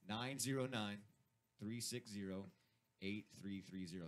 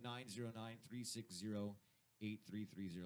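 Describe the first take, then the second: First: The number is said slowly and deliberately. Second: The number is said at normal speed.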